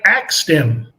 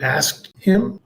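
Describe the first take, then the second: First: The verb sounds like 'axed', with k before s. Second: The verb sounds like 'asked', with s before k. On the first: The speaker calls it wrong. "so I axed him" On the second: The speaker calls it right. "You mean you asked him?"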